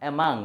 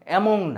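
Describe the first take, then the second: First: The middle vowel sounds like 'uh'. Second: The middle vowel sounds like 'o'. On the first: The speaker calls it right. "অ্যামাং মনে রাখবেন" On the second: The speaker calls it wrong. "অ্যামং না"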